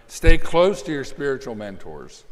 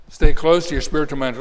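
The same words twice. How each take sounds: First: Said in the usual way. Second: "Stay" hit hard, the whole line louder; emphatic repeat. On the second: Shown as a demonstration. Preacher repeating the point to the congregation, emphatic. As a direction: drive the point home with "Stay".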